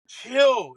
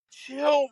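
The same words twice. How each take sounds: First: "Chill." repeated louder and emphatic; firmer chill. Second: Said in the usual way. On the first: Retold or imitated. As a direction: press "Chill." harder the second time, falling. Calming the jacked-up golfer.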